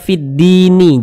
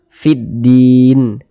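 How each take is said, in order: First: The word ends with an extra vowel sound. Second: The word ends on a stopped n sound. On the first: The speaker calls it wrong. "Jangan dibaca fiddini, jangan" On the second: The speaker calls it right. "huruf nunnya ini kita sukunkan"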